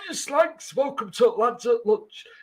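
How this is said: It is read in an exaggerated put-on voice.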